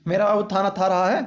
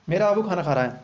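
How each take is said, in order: First: Mock lisp, "थाना था" said with th instead of kh; lisping baby talk. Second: Said in the usual way. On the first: Shown as a demonstration. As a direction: playfully lisp "थाना था रहा है". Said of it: "तो ऐसे ही बोलते हैं ना सब". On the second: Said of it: "तो ढंग से समझिए बस".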